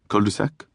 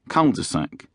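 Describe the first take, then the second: First: It is said with a French accent. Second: It is said with an English accent. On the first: "you don't say them with a French accent" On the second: "you say them with the English accent"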